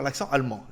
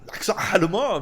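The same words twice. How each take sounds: First: Said in the usual way. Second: Hammed-up German accent, punched out; mock German accent. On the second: Shown as a demonstration. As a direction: put on a jokey German accent. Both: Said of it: "tu essaies de faire l'accent allemand".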